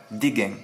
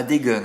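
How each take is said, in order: First: "gains" said as "guèn", with an open è; southern "guèn" for "gains", lower in pitch; corrected pronunciation. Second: "gains" said as "gueune", with a rounded vowel; wrong pronunciation. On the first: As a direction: say GAINS with è and a sounded n. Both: Shown as a demonstration. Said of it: "Pas des gains, hein, des gains".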